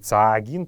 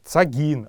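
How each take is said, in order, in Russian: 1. Первый гласный долгий. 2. Первый гласный краткий. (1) "а не цаагин" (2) "в слове цак долготы нет"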